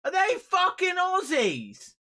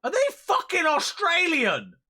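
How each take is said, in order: First: Hammed-up Australian accent yell; mock Aussie. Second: Loud, high disbelieving yell; stunned yell at the screen; shocked outburst. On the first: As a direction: stretch it out in a put-on Aussie voice. Repeats question, slower, drawn out. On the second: Real, not acted. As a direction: shout it in sheer disbelief. Streamer reacts to game accents.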